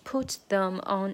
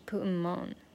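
First: 'Them' is said in full. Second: 'Them' is reduced to ''em'. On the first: "本来是put them on" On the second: "弱化嘛，所以就是put 'em on"

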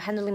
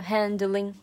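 First: The word is said quickly and rushed. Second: The word is said slowly and drawn out. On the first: The speaker calls it wrong. "就想要一溜烟的抢节奏抢过去" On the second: The speaker calls it right. "他有意的拉长了"

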